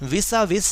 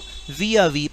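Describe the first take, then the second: First: The s sounds are pronounced aloud. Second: The s sounds are left silent. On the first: The speaker calls it wrong. "इसको हमने विसा विस नहीं पढ़ना" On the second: The speaker calls it right. "एस silent होता है, तो हम इसको विया वी पढ़ेंगे"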